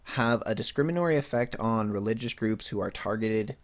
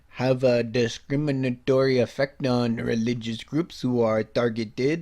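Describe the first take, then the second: First: It is said in the speaker's ordinary accent. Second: It is said with a French accent.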